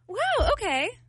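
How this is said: It is said in a supportive tone.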